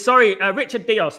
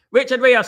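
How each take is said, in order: First: "Dios" said with a D, Dee-os; corrected name. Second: "Rios" said with an R, Ree-os; name read as "Rios", starting with R; misread name. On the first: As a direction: fix the name to "Dios", starting with D. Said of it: "not Richard Rios". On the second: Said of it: "Sorry, uh, Richard Dios, not Richard Rios". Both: Real, not acted.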